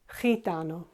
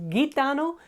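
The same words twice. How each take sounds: First: The word starts with an H-like sound. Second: The word starts with a hard G sound. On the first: The speaker calls it right. "pronounced as H or the English H" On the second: The speaker calls it wrong. "it's not gitano"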